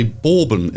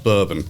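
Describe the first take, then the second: First: "bourbon" said the mistaken novice way, with an altered first vowel; novice's mispronunciation. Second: Said in the usual way. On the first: Shown as a demonstration. Novice host admits his slip, "bourbon" mispronounced. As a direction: misread "bourbon" as a newcomer to the word might. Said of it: "I even want to say bourbon instead of". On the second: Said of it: "instead of bourbon".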